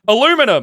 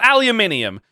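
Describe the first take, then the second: First: The word is said with four syllables. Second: The word is said with five syllables. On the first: The speaker calls it wrong. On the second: The speaker calls it right.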